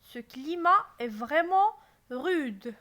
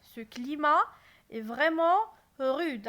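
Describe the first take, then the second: First: Loud, astonished stress on vraiment. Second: Loud, surprised rise on climat; astonished. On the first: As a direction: sound amazed at how rude the climate is. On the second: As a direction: marvel at the harsh climate. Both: Shown as a demonstration. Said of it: "j'exprime mon étonnement".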